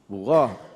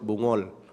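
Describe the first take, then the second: First: The word ends with a t sound. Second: The word ends with an l sound. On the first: The speaker calls it right. "Saya kata bukan bungol. Bughat" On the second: The speaker calls it wrong. "Orang Banjar sebut bungol"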